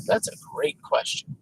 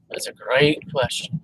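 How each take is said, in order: First: Muttered under breath, softer; whispered aside. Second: Said in the usual way. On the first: Real, not acted. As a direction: say it to yourself.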